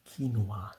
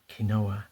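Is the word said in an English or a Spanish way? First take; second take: English; Spanish. First: The word is said with an English pronunciation. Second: The word is said with a Spanish-like pronunciation. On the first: "some people in English use the pronunciation" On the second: "which is more faithful to the Spanish"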